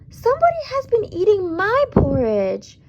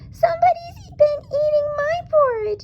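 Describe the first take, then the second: First: It is said in a sweet, low voice. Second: It is said in a high, squeaky voice.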